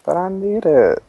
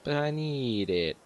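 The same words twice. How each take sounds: First: High, pleading whine; playful whine. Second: Slow, soft mock whine; mocking echo. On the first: Pretend. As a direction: whine it high, begging for the apple back. Pleading for the golden apple. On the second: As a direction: parrot the plea back, drawn out and softer. Mocking echo of friend's plea.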